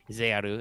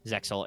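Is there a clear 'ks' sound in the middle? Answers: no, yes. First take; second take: no; yes. First: The middle 'ks' sound is left out. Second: The middle 'ks' sound is clearly pronounced.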